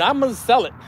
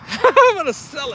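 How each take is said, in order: First: Said in the usual way. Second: High, giggly repeat; tickled, laughter in the words; laughing. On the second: Real, not acted. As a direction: say it through a laugh. Laughing repeat of plan to sell.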